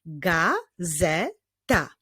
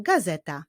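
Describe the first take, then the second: First: GAZETA very slowly as GA, ZE, TA; three separate beats on "gazeta"; drawn-out GA... ZE... TA; syllable by syllable. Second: Said in the usual way. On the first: Shown as a demonstration. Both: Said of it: "Wyklaszczmy sylaby w tych wyrazach".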